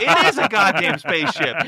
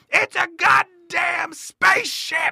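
First: His own dazed echo of the magician's shout; awed agreement. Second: Much higher, slow, shouted "It's a goddamn spaceship!"; imitating the magician's triumphant bellow; booming showman shout. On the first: Retold or imitated. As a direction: repeat it back, amazed. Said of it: "And I was like". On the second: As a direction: belt it like a magician revealing the big trick. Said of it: "And he's like".

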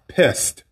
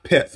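First: "pest" said with s before the t, p-e-s-t, the word he meant; corrected to pest. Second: "pets" said with a t before the s, p-e-t-s, the slip he made; wrong word pets. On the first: A Southern podcaster correcting pets to pest for listeners. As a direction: correct the slip and say "pest" with the s then t. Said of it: "I'm sorry, pest". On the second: A Southern podcaster slipping and saying pets instead of pest. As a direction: say "pets" as the mistaken word, t then s. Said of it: "dialect sometimes bring words together". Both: Shown as a demonstration.

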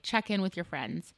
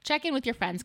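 First: Said in the usual way. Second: "Check in with your friends" said high and pressing, with the stress on "in"; emphatic advice. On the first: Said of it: "most selfless thing you can do is just". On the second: Shown as a demonstration. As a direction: urge it, pitched up on "Check in". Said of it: "I think everybody should kinda do that".

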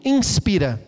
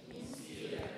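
First: Said in the usual way. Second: A soft unvoiced intake of air; audible breath in. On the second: Shown as a demonstration. Pastor acts out the word by breathing in audibly. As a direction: breathe in so it is heard. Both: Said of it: "Diga comigo, inspira".

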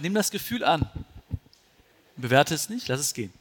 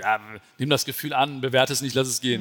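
First: Calm, patient repeat; calm advice repeated patiently; patient repetition. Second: Misunderstood echo. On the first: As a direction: say it again gently, as the friend. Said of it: "Er meinte". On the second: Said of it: "ich hab es nicht verstanden". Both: Retold or imitated.

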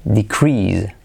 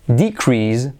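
First: DeCREASE, pitched low before CREASE; stress on second syllable. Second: DEcrease, slow, weight on DE; stress on first syllable. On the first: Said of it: "si acentuamos la primera sílaba o la segunda". (decrease con acento en la segunda sílaba) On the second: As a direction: lean on DE in decrease. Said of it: "Por lo tanto, tenemos". (decrease lento, con acento en la primera sílaba) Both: Shown as a demonstration.

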